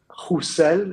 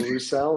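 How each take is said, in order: First: The name is said with a French pronunciation. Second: The name is said with an English pronunciation. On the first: This is how it is said in France. "if you're in France" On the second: This is how it is said in England. "if you're in England"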